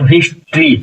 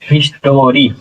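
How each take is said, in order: First: The t and r are blended with no vowel. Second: A full vowel is sounded between t and r. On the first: "लेकिन अगर आप मिला करके पढ़ेंगे" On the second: "रा रा पर बड़ी मात्रा हिस्टोरी"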